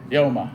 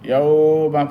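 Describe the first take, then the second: First: The middle sound is said quickly. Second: The middle sound is drawn out long. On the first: The speaker calls it right. "তাড়াতাড়ি" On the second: The speaker calls it wrong. "এখানে ইয়াউমা পড়া যাবে না"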